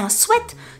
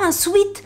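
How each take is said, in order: First: The vowel sounds like 'eh', as in 'set'. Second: The vowel sounds like 'ee', as in 'seat'. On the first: The speaker calls it right. "la vraie prononciation pour ça c'est un sweat" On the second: The speaker calls it wrong. "c'est pas un sweet"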